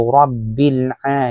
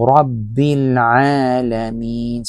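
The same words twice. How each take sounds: First: "Rabbil A" with a hamza stop on the A; the wrong way, with a glottal stop; wrong pronunciation. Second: "Rabbil Alamin" slow, with the throaty ain on the A; the right way, from the throat; correct pronunciation. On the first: Teacher warns students: "Rabbil A" with a hamza stop. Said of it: "Hindi po Rabbil A". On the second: Teacher shows students "Alamin" with a throaty ain. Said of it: "ain po yan". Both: Shown as a demonstration.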